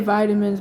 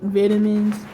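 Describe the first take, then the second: First: It is said with an American pronunciation. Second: It is said with a British pronunciation. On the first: "we say vitamins" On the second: "others say vitamins"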